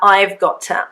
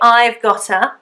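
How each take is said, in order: First: The words are said as separate got to. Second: The words are run together as gotta. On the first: "I would prefer I've got to" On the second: "we can say I've gotta"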